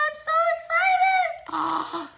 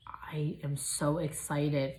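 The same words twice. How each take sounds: First: Very high, slow squeal; drawn-out very high squeal; squealing excitement. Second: Slow hushed whisper; slow excited whisper; whispered excitement. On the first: Unboxing gift. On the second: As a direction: whisper it like a secret thrill. After squealing. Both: Real, not acted.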